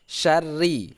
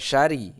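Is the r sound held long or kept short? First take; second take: long; short. First: The r sound is doubled and held long. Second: The r sound is single and short. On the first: The speaker calls it right. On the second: The speaker calls it wrong.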